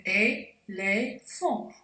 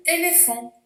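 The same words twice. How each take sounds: First: "éléphant" slowly, syllable by syllable, é - lé - phant; split into syllables. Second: Said in the usual way. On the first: Shown as a demonstration. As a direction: break "éléphant" into three separate beats with clear gaps. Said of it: "On coupe le mot en syllabes". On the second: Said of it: "On coupe le mot".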